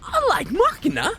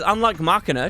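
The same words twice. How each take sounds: First: It is said in a put-on character voice. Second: It is read in the speaker's own normal voice.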